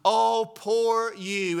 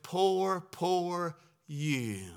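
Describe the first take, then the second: First: Slow, sarcastic pity; syrupy sarcastic sympathy; mock pity. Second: Mock pity. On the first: Shown as a demonstration. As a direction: drag out the fake sympathy. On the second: Mocking pity-song culture.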